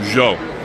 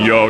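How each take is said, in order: First: The word begins with a soft J-like sound. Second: The word begins with a plain Y sound. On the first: "which is pronounced like a J" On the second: "instead of saying "yo,""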